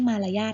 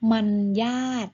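First: The first syllable is a plain open 'ma'. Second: The first syllable ends with an n sound. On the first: The speaker calls it wrong. "ไม่ใช่มารยาทนะคะ" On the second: The speaker calls it right. "อ่านว่า"

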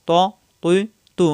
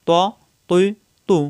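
Both takes have the same delivery.

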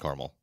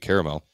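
First: The word is said with two syllables. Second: The word is said with three syllables. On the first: This is the pronunciation from growing up. "I used to call it was growing up it was caramel" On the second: This pronunciation follows the spelling. "there's definitely another A there, so it probably should be caramel"

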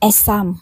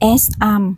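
First: The s sound links into the next word. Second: The two words are said separately, unlinked. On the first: "เขาเชื่อมตัวสะกด S กับ I" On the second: "จาก"

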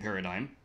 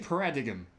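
First: The g is silent, ending in a plain 'dime' sound. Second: The g is pronounced, following the spelling. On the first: "I said it right that time" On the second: "Like para-D-I-G-M"

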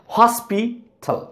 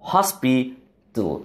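First: A full vowel is pronounced before the final l. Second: The final l is syllabic with no vowel. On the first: The speaker calls it wrong. "What we used to say" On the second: The speaker calls it right. "It must be hospital"

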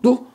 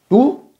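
First: The word is said quickly and clipped. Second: The word is said at a normal speed.

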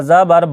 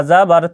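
The two takes are said the same way.

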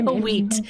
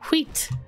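First: An extra vowel follows the h sound. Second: No extra vowel follows the h sound. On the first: The speaker calls it wrong. "I don't say wheat" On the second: The speaker calls it right. "It's wheat. There's no A after the huh"

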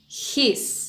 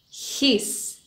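First: It is said as one contracted syllable. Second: It is said as one contracted syllable.

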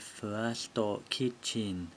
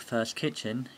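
First: First is said with extra Japanese vowels. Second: First is said as one English syllable. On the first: "If these words were pronounced in katakana" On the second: "this is called First Kitchen"

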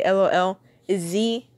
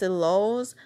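First: It is spelled out letter by letter. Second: It is said as one whole word. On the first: "I don't actually just say L-O-L-Z" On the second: "I actually pronounce it as lols"

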